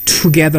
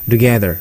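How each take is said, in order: First: The t sound is pronounced fully and clearly. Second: The t sound is weakened and softened. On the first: The speaker calls it wrong. "together 하지 않고" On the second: The speaker calls it right. "트 사운드가 약화되는 현상"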